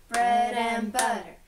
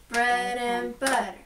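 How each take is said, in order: The two takes are said the same way.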